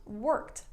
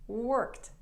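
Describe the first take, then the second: The two takes are said the same way.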